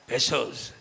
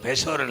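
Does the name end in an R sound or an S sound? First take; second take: S sound; R sound. First: The name ends with an S sound. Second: The name ends with an R sound. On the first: The speaker calls it right. "பெசோஸ் பெசோர் இல்லை" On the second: The speaker calls it wrong. "பெசோர் இல்லை"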